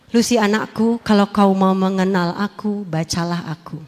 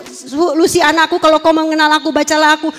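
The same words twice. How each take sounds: First: Calling voice. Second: Said in the usual way. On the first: Retold or imitated. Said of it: "Suara itu bilang apa?". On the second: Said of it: "Bolak-balik suara itu".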